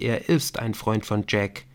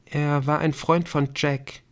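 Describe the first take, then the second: First: "ist" picked out as the key word; stress on IST. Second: Said in the usual way. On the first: A narrator's reading. Emily quoting Viktor's correction, stress on "ist". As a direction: lean on "ist" to correct the tense.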